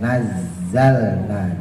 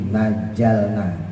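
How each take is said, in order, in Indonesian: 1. Konsonan yang digandakan itu bunyi z. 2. Konsonan yang digandakan itu bunyi j. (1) "jangan sampai naik ke atas" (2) "Kalau ujung lidahnya naik ke atas nanti jadi jim"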